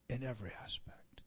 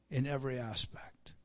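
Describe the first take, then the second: First: Unvoiced whisper. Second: Said in the usual way. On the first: Real, not acted. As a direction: repeat it as a hushed whisper. Echoed as a whisper.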